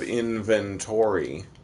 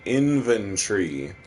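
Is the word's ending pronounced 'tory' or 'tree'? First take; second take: tory; tree. First: The ending is said fully as 'tory', American style. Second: The ending is squeezed into 'tree', British style. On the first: This is how it is said in America. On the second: This is how it is said in the UK.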